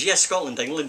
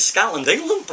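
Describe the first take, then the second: First: Said in the usual way. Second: "Scotland, England?" higher, rising on England; puzzled question. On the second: Retold or imitated. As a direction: query "Scotland, England?" with a lift at the end. Agency man puzzled by the answer.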